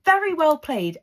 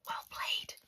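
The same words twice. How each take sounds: First: High, loud, admiring VERY; emphatic praise. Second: Hushed, admiring whisper; whispered aside. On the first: Praising Amy's clever reply. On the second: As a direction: slip it in under your breath as praise. Whispered aside repeating the praise. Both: Real, not acted.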